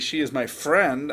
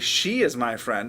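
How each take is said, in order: First: The word "friend" carries the emphasis. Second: The word "she" carries the emphasis. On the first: That person is a friend, not something else. "I'm telling you that that person's my friend" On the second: It is her and not another person. "I'm telling you that it's not some other person"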